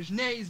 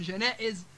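First: جنايز as jnayez, y glide; dropped hamza. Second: Said in the usual way. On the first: Shown as a demonstration. Teacher giving examples, جنايز with y for hamza. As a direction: say جنايز with no glottal stop. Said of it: "تحال إلى حرف علة". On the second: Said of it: "بدل من جنائز".

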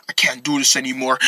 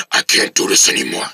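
First: Low, soft growing anger; low, strained voice. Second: Very low angry growl. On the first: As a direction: hold the anger down, low and quiet. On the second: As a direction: sink into a monstrous, furious growl. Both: Acted. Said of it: "Oh my gosh, your voice".

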